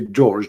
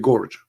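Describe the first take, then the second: First: It starts with a soft j sound. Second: It starts with a hard g, Egyptian style.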